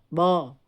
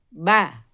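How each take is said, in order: First: The vowel is rounded and heavy, like o. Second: The vowel is open and light, like a. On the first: The speaker calls it wrong. "jangan bo" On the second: The speaker calls it right. "kita harus arahkan suara keluar"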